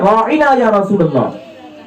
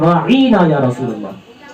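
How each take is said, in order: First: The word raina is said short and plain. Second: The word raina is stretched out slightly. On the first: A polite request to be shown consideration. "सहाबा क्या कहते हैं" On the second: A mocking insult calling him a shepherd. "हल्का खींच कर"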